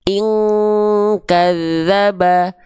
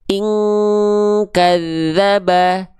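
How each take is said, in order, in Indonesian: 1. Dengung sebelum k kuat. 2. Dengung sebelum k kuat.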